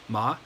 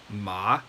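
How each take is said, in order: First: The pitch rises steadily upward. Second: The pitch dips low, then rises. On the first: "the second tone, the one that kind of that just goes up" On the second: "versus ma"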